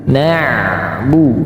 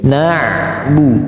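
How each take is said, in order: No difference in how they are said.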